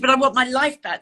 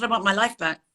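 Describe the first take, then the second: First: Higher, louder repeated protest; insistent plea. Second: Said in the usual way. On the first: Retold or imitated. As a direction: insist on it, retelling a desperate plea.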